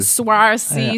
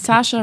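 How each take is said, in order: First: The name sounds like 'Swarcy', unlike Sascha. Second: The name sounds like the German name Sascha. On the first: The speaker calls it wrong. "wie falsch ihr Name ausgesprochen wird" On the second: The speaker calls it right. "Eigentlich muss man einfach nur denken wie das deutsche Sascha"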